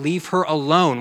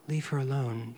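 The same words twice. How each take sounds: First: It is said in an angry, ticked-off tone. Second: It is said gently and meekly.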